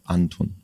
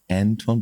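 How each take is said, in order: First: The first vowel is an open 'ah' sound. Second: The first vowel sounds like the English letter A. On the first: The speaker calls it right. "in German it's like you say the A in in British English, school English, like Anton with A" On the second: The speaker calls it wrong. "you say A to the letter A, and then you say Anton, but it's it's wrong"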